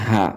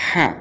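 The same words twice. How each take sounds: First: হা said with a thickened throat; heavy, full-throated হা; big ha, thick throat. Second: Long হা with the h made far inside; small ha, from inside. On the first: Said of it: "গলা মোটা করে বলতে হবে". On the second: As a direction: breathe the h of হা from within. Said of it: "ভিতর থেকে উচ্চারণ হতে হবে". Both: Shown as a demonstration.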